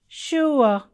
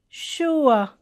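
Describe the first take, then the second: The two takes are said the same way.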